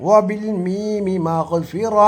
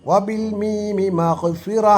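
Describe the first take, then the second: No difference in how they are said.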